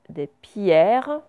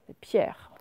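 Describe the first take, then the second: First: The phrase is said slowly and carefully. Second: The phrase is said quickly and smoothly.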